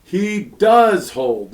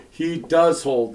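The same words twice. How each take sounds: First: "does" pressed hard, slow and emphatic; stress on does. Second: "does" stressed, a little slow. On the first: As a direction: lean on "does" to make it emphatic. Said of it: "That's the emphatic". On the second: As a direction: mark "does" as the emphatic word. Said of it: "simple emphatic". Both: Shown as a demonstration.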